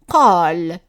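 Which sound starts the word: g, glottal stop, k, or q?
q. The word starts with a deep q sound. This keeps the standard qaf in dialect speech. "if we keep the same sound for the qaf"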